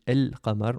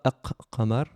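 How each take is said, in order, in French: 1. L'article se prononce avec un son L clair. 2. Le L est omis et le q est doublé. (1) "on le prononce de manière normale" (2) "On ne dit pas Aq-Qamar. On ne double pas la consonne"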